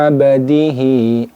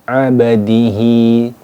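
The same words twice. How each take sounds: No difference in how they are said.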